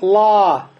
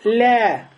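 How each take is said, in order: First: The L is heavy with a deep, open vowel. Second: The L is light with a front, thin vowel. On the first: The speaker calls it wrong. "не говорим ла" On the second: The speaker calls it right. "а говорим ля"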